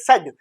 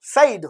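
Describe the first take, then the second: First: The vowel sounds like 'eh'. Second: The vowel sounds like 'eye'. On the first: This is how people actually say it. The speaker calls it right. "लेकिन बोलते हैं सेड" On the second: This is how the spelling suggests it. The speaker calls it wrong. "ऐसे ही साइड होना चाहिए"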